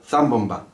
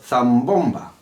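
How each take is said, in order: First: No delay comes before the stressed syllable. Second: A slight delay comes before the stressed syllable. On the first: The speaker calls it wrong. "no digo zambomba" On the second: The speaker calls it right.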